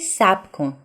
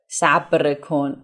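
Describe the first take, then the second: First: The r sound in the first word is dropped. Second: The r sound in the first word is pronounced. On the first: The speaker calls it right. "you say صبر کن. ... we omit the letter ر in spoken Persian" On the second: The speaker calls it wrong. "you don't say صبر. صبر کن"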